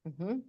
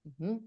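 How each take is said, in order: No difference in how they are said.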